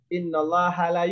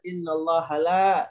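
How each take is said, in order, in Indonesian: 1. Vokal dalam 'la' dibaca pendek. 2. Vokal dalam 'la' dibaca panjang. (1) "La-nya kita pendekkan" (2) "la-nya panjang"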